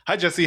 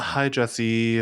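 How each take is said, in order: First: The greeting is said with higher energy. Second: The greeting is said with lower energy. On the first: The speaker calls it right. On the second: The speaker calls it wrong.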